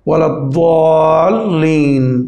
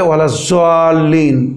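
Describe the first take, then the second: First: The last word begins with an emphatic d sound. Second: The last word begins with a z sound. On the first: The speaker calls it right. "এটা হচ্ছে দাদ" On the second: The speaker calls it wrong. "কিছু লোক বলে ওয়ালা জাল্লিন, তো জাল্লিনও না"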